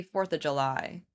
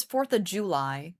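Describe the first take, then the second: First: Said in the usual way. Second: JULY with a full "joo" first syllable; rounded OO in JULY; imitated fancy July. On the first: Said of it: "where I say fourth of July". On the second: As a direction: fourth of July with JULY as JOO-lie. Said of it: "She says fourth of July".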